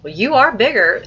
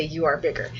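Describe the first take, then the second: First: High, loud, lively mom's reply; in character. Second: Said in the usual way. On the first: Shown as a demonstration. Teacher shows a fluent reader voicing mom, in character. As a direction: act it out with "are" lifted. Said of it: "if you really wanna be in character". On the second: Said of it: "that's fine if you say".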